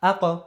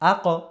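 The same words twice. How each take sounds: No difference in how they are said.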